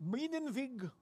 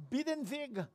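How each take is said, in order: First: Second try at Biedenweg in a German accent. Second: German name said with a German accent, pitched up. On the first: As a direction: repeat Biedenweg, German style, a bit softer. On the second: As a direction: say Biedenweg the German way. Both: Shown as a demonstration. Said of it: "I love the German accent".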